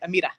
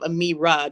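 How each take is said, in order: First: The middle consonant sounds close to a d. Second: The middle consonant is a plain r sound. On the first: "they pronounce the R like a duh" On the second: "instead of Amira"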